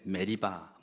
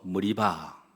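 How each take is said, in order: First: The first vowel is an 'eh' sound. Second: The first vowel is an 'uh' sound.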